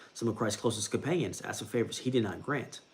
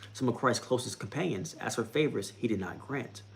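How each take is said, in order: The two takes are said the same way.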